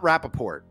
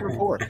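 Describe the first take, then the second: First: The word is said with three syllables. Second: The word is said with two syllables. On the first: The speaker calls it wrong. "Not Rappaport" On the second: The speaker calls it right. "It's actually rapport"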